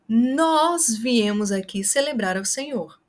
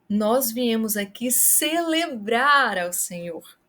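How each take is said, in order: First: The word nós is stressed. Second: The word celebrar is stressed. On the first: It highlights who came. "para o nós, você vai enfatizar com a gesticulação e com a voz" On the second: It highlights the act. "Se você quer chamar a atenção para o ato"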